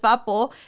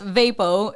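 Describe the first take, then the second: First: It is said with a Mexican accent. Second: It is said with an American accent.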